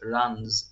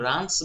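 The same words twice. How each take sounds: First: The word ends with a buzzing z sound. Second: The word ends with a hissing s sound. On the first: The speaker calls it right. "রানস জ sound" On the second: The speaker calls it wrong. "কিন্তু সেটা রানস না"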